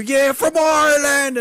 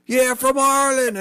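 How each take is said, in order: First: High, loud cheering shout; loud, high party shout of being Irish; shouted claim. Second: High, proud mock answer; high, cheeky claim of being Irish; playing along. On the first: Retold or imitated. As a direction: yell it out to a cheering crowd. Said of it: "and scream". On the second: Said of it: "they would lose their shit".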